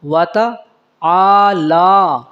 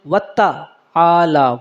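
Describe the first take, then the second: First: "واتا آلہ" slow, single t, long held vowels; correct reading. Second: "وتا آلہ" with a doubled t, endings short; wrong reading. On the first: Teacher corrects the mistake, slow "واتا آلہ" with long vowels. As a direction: stretch both vowels of "آلہ" after a light "واتا". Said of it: "وتا نہیں ہے بلکہ". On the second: Teacher shows the usual mistake, doubled t in "وتا آلہ". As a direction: run "وتا آلہ" together on a hard double t. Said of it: "اکثر غلط طریقے سے". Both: Shown as a demonstration.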